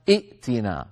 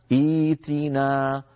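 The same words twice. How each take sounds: First: ائتنا with two hamzas, as the Arabs never say it; wrong reading. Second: إيتنا slowly with the hamza turned into a long ee; correct reading. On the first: Teacher showing students the wrong form ائتنا. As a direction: say ائتنا quickly with a hamza stop. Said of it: "ولا يقولون أبدًا". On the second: Teacher giving students the correct way to say إيتنا. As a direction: say إيتنا drawn out, i-tina. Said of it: "فيقولون". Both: Shown as a demonstration.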